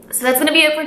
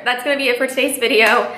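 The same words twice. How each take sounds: First: Tearful, higher and rushed; teary-eyed. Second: Said in the usual way. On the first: Real, not acted. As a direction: still choked up. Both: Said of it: "I, like, need to get it together".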